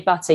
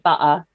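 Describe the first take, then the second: First: The T sound in the middle is pronounced. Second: The T sound in the middle is dropped. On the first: "you don't say butter" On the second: "you say butter"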